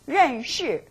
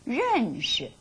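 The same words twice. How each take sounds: First: The second syllable carries its full tone. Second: The second syllable is light and toneless.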